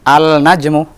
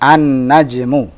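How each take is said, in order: First: A clear L is heard before the N. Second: The L merges into a doubled N sound. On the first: The speaker calls it wrong. "bukan al-najmu" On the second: The speaker calls it right. "Lihat, an-najmu"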